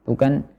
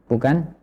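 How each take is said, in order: Both takes have the same delivery.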